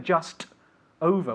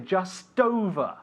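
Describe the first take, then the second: First: The two words are said separately, unlinked. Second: The two words are linked together smoothly. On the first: The speaker calls it wrong. "We don't say just over" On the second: The speaker calls it right. "we say just over"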